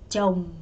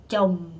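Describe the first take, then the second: No difference in how they are said.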